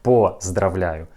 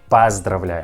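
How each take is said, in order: First: The first vowel sounds like a full O. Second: The first vowel sounds like A. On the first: The speaker calls it wrong. "not поздравляю" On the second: The speaker calls it right. "this letter O we pronounce like A"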